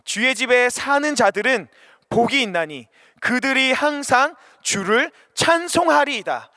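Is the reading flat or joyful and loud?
joyful. It is read loudly, bursting with joy. The reader is moved to praise by the words. The speaker calls it right. "목소리를 높이고 마음을 담아서 ... 기쁨의 마음이 터져 나오게"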